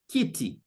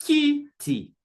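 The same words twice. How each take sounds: First: Said in the usual way. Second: Kiti, KI drawn out and raised; stress on first syllable. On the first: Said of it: "The Swahili name for a chair". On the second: Shown as a demonstration. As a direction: hold KI up high in kiti, then drop. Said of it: "stress will be on the first syllable".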